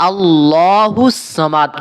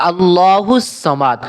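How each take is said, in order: Both takes have the same delivery.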